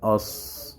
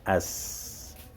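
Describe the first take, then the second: First: The s sound is heavy with a dark vowel. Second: The s sound is light with a bright vowel. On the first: Only the tongue-closing feature is dropped, leaving the raised-tongue feature. "ça va devenir sinun avec tafkhim" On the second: Both the tongue-closing and raised-tongue features are dropped. "si on annule al-itibaq et al-isti'la sur sordun, ça devient as"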